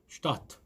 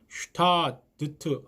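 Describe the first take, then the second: First: The ending has only a t sound. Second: The ending has a d sound before the t. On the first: The speaker calls it right. "꼭 T로 발음하시면 좋겠습니다" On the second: The speaker calls it wrong. "슈타드트 하지 마시고"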